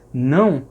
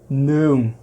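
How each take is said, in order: First: The diphthong itself is nasalized throughout. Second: An oral diphthong ends in a velar nasal consonant. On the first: "em vez das pessoas dizerem não" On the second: "Elas dizem ou, sem nasalidade ... terminam fazendo uma consoante nasal velar"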